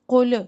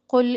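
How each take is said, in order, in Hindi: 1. अंतिम l खुला है, उसके बाद एक स्वर है। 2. अंतिम l बंद है, उसके बाद कोई स्वर नहीं। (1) "कुल ऐसे ना हो।" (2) "कुल लाम साकिन को हिलाना नहीं।"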